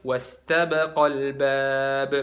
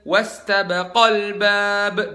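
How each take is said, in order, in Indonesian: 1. Vokal panjang sebelum 'al' diucapkan biasa saja. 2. Vokal panjang sebelum 'al' ditekankan. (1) "jadi bukan wastabaqal bab" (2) "dua orang, wastabaqo, ada alif di situ ... jadi tambahin naber di situ"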